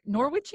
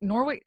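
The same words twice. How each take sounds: First: Norwich ending in a ch sound, Nor-witch. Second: Norwich with a hard k ending, Nor-wick. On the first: Host tries the other version, Norwich said as Nor-witch. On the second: Host unsure of the name, trying Norwich as Nor-wick. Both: Shown as a demonstration. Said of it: "Is it Norwich or Norwich".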